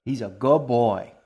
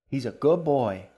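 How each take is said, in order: First: Slow, louder lilting coo to the cat; a doting queen cooing at her cat, sing-song. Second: Sing-song. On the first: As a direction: croon it like praising a pet. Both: A narrator's reading. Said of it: "in her sing-song voice".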